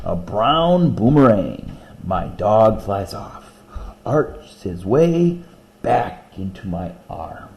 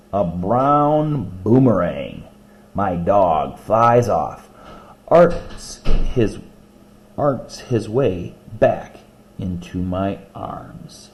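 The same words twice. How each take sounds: First: Slow reading, the beat leaned on; beat brought out. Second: Slow, deliberate poem reading. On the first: Shown as a demonstration. Teacher rereading to show the beat, slow and rhythmic. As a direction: bring out the little beat. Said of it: "you did feel that little beat in there". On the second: Acted. Teacher reading a dog poem to class, slow and rhythmic. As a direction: savor each image slowly.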